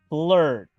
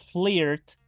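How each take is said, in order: First: The vowel sounds like a Spanish e. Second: The vowel sounds like a Spanish i. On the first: The speaker calls it right. "lo pronuncio como una E ... digo flirt" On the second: The speaker calls it wrong. "no como una I en español. No digo flirt"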